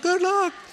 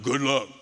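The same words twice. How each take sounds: First: It is said in a high voice. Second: It is said in a deep voice.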